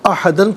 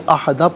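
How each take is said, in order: First: The word ends with an n sound. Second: The word ends with a long a. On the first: The word is joined to the next word. "ज़ाहिरन अहदन पढ़ेंगे" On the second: The reader stops after the word. "वक़्फ़ की सूरत में अहदा पढ़ा जाएगा"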